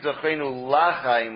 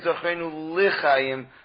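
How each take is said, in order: First: The L carries a full 'a' vowel. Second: The L carries a short reduced vowel. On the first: It could sound like a wish not to live. The speaker calls it wrong. "not to say Zochenu Lachaim with a patach" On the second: It is a plain wish for life. The speaker calls it right. "rather they say Zochenu Lichaim with a shva"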